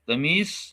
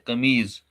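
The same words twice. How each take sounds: First: The word ends with an s sound. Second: The word ends with a z sound. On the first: This is the Urdu form. "Urdu में कहते हैं कमीज" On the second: This is the Kashmiri form. "Kashmiri में कहते हैं कमीज, स्वाद के बजाय जौद यूज करते हैं"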